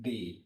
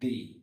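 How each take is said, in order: First: The vowel is a long 'ee' sound. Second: The same.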